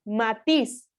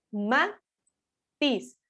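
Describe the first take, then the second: First: Said in the usual way. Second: "Matiz" split into ma, pause, tiz; teacher spacing out "Matiz" as ma and tiz; syllable by syllable. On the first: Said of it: "la fuerza de voz recae". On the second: Shown as a demonstration. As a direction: break "Matiz" into two separate syllables. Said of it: "hacer la división".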